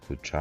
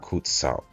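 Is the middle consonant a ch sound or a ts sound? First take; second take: ch sound; ts sound. First: The middle consonant is a ch sound. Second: The middle consonant is a ts sound. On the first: The speaker calls it wrong. "Which one is the correct enunciation?" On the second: The speaker calls it right. "It's pronunciated like a T"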